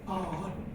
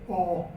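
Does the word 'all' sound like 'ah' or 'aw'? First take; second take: ah; aw. First: The word is said with an open 'ah' vowel. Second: The word is said with a rounded 'aw' vowel. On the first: This is the southern and northern Scots form. "that is pronounced ah" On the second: This is the form used elsewhere in Scots. "everywhere else in Scots you say aw instead of ah"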